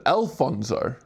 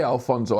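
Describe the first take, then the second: First: Alfonso opened as "El-fonzo"; Alfonso, first syllable like the letter L; corrected pronunciation. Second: Alfonso as the wrong version; stressed first syllable. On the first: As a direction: say Alfonso with an L-name "El" start. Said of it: "Al and L sound the same". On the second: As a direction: say Alfonso with an "Al" opening. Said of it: "I said Alfonso". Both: Shown as a demonstration.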